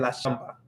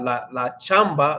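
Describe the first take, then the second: First: Chamba begins with a soft sh sound. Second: Chamba begins with a hard ch sound. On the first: "they're gonna say" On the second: "Instead of saying"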